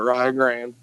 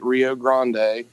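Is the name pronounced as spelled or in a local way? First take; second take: local; as spelled. First: The name is pronounced in a local way. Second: The name is pronounced as it is spelled. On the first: This is how people in the region say it. "for some reason we call it Rio Grande" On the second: This is the standard name. "we wanted to take Rio Grande"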